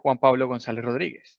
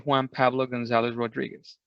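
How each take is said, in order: First: The name is said with a Spanish accent. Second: The name is said with an English accent. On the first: This is how the name is said natively. "I don't say" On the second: This is how English speakers would say the name. "that's how people would say with the English accent"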